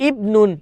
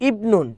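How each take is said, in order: No difference in how they are said.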